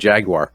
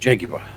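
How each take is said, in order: First: The word is said with an American pronunciation. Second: The word is said with a British pronunciation. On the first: "Americans who say" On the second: "as the English say"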